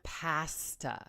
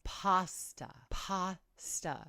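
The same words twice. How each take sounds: First: "pasta" with flat short A as in cat; wrong pronunciation. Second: "pasta" with open AH, PAH-stuh; corrected pronunciation. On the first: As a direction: stretch "pasta" slowly as PASS-tuh. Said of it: "keep mispronouncing it". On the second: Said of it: "People tell you how to pronounce something". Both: Shown as a demonstration.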